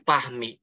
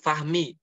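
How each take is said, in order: First: The name begins with a p sound. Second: The name begins with an f sound. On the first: "Jadi Pahmi sama orang" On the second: "kalau ada orang namanya Fahmi"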